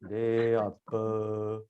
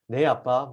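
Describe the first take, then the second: First: The reply sounds unwilling and grudging. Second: The reply sounds bright and happy. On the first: The child does not want to do it. The speaker calls it wrong. "하기 싫다라는 게 그냥 목소리에 다 들어있어요" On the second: The child is glad to obey. The speaker calls it right. "기쁘다는 걸 얼굴로 표현하는 거예요"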